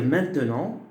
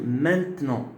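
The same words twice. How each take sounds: First: The middle schwa vowel is pronounced. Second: The middle schwa vowel is dropped. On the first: "on peut dire maintenant" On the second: "je peux supprimer le E schwa"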